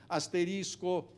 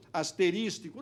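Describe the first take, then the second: First: Asterisco cleanly, no extra syllable; careful correct asterisco; correct form. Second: Asterístico with an extra syllable; wrong form. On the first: Lecturer stating the correct word. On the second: Lecturer showing the lawyers' error, plain. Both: Shown as a demonstration. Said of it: "Não, asterisco".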